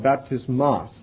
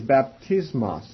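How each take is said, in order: First: The stress is on the last syllable. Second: The stress is not on the last syllable.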